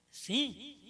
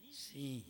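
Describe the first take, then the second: First: "Sim?" lifted high as a question. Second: "Sim." low and soft, as an answer; confirming SIM. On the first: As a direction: ask "Sim?" with a raised pitch, awaiting agreement. Pergunta à congregação e responde. ("Sim?" perguntando, em tom agudo) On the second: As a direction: answer "Sim." quietly, dropping the pitch. Responde à própria pergunta. ("Sim." respondendo, baixo e grave) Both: Real, not acted.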